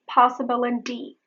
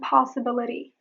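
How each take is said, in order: First: The T is a full, hard T. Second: The T is a quick flap. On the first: The speaker calls it wrong. "I'm not saying possibility" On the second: The speaker calls it right. "I'm saying possibility"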